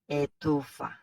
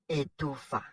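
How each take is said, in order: Both takes have the same delivery.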